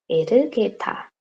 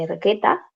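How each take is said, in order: First: "Ergueta" slowed to "e-reu-gue-ta"; Korean rendering. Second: Said in the usual way. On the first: Shown as a demonstration. Teacher reading back the Korean spelling, "Ergueta" in four syllables. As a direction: say "Ergueta" slowly with a vowel after the R.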